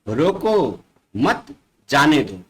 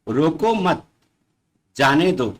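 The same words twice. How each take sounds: First: There is a pause after the first word. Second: There is a pause after the second word. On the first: Stop them; do not let them go. "दूसरे में रोको" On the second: Do not stop them; let them go. "पहले वाक्य में रोको मत शब्द के साथ थोड़ा सा रुक गया है"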